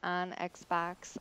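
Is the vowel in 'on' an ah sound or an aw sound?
ah. The vowel in 'on' is an open ah sound. This is the speaker's own northern pronunciation. "And notice I said on Xbox"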